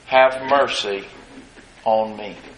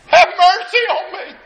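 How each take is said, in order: First: It is said in a calm, plain way. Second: It is cried out in desperate pleading.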